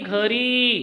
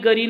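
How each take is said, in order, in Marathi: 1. पहिला व्यंजन महाप्राण 'gh' आवाज आहे. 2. पहिला व्यंजन अल्पप्राण 'g' आवाज आहे. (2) "गरी नाही भाई"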